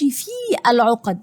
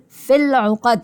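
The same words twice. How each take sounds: First: The vowel of 'fi' is held long. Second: The vowel of 'fi' is cut short. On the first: The speaker calls it wrong. "انا ما بقولش في العقد" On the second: The speaker calls it right. "هقول في العقد، حذفنا"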